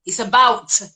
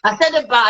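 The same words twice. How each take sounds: First: About said fully with the final T, as "about"; correcting her about. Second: About said without the final T, as in "about"; teasing copy of her about; imitating a wrong about. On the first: Shown as a demonstration. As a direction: say about properly with its T. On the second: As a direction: mimic her dropped-T about. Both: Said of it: "You just said it wrong".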